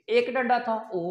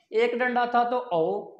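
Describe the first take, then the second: First: Said in the usual way. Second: ओ drawn out long and slow; slow demo. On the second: Shown as a demonstration. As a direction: stretch the ओ slowly, like spelling aloud for a class.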